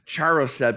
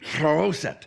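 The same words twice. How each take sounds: First: The word is said with an anglicized pronunciation. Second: The word is said with a non-anglicized pronunciation. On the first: The speaker calls it wrong. "because that's the anglicized pronunciation" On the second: The speaker calls it right. "he seemed very concerned that I correct that with you"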